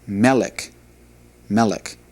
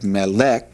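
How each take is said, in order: First: Melek with the stress on the opening ME; stress on first syllable. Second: Melek with the stress on the final LEK; stress on second syllable. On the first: Hebrew teacher showing where the accent should go, stress on the start of melek. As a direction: say melek as ME-lek, second syllable light and falling. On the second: Hebrew teacher showing the mistaken accent, stress on the end of melek. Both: Shown as a demonstration. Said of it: "that's where the accent should go".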